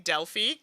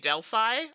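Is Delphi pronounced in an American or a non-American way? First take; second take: non-American; American. First: Delphi is pronounced a non-American way. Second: Delphi is pronounced the American way. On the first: "I say Delphi" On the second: "I think Americans say Delphi"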